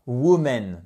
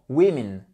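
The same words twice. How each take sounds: First: Women wrongly said as "woo-MEN"; drawn-out "woo-menn" with a full EN ending; mispronounced women. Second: Women said as "WIM-in"; short I in the first syllable of Women; correct women. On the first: Teacher shows the mistake to avoid, slow "woo-menn". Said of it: "Et pas woman". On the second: Teacher corrects the plural, Women as "WIM-in". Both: Shown as a demonstration.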